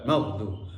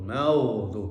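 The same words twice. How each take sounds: First: The dhad sound is cut short. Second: The dhad sound is held and flowing. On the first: The speaker calls it wrong. "bukan maudhu" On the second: The speaker calls it right. "yang betul itu maudhu"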